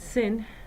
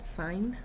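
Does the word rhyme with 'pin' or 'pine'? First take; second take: pin; pine. First: The vowel is short, rhyming with pin. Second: The vowel is long, rhyming with pine. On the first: The speaker calls it wrong. "It's not sin" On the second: The speaker calls it right. "you pronounce it sine"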